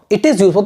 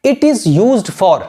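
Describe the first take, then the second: First: Said in the usual way. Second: Very slow, word by word; teacher giving a model phrase; slow dictation. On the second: Shown as a demonstration. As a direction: dictate slowly for writing. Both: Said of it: "आपको क्या बताना है".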